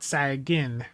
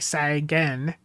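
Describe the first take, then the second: First: The last syllable sounds like 'gin'. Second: The last syllable sounds like 'gan'. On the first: The speaker calls it wrong. "not Sagin. I got to get the Gan instead of the Gin" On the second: The speaker calls it right. "I need to train myself to say Sagan"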